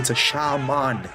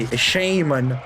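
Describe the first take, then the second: First: It is said as 'sha' plus a full 'man'. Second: It is said with an American pronunciation. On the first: "Remember, it's a shaman. It's a man that does sha things" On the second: "like uh, the Americans say"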